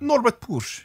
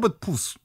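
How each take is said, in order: First: The surname ends with a sh sound. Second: The surname ends with a plain s sound. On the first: "I'm saying it's Push" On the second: "it was Puus"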